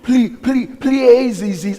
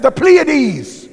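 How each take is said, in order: First: Loud mocking stumble, Pleiades said PLAY-ah-deez; wrong pronunciation. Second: The Pleiades said loud and high as PLEE-uh-deez; correct pronunciation. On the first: Mocking people online who stumble over the star names. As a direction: stammer Ple-, Ple-, then a garbled Pleiades. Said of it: "they can't even pronounce it right". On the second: Shown as a demonstration. Preacher correcting the name of the Pleiades, loud and high. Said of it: "I said".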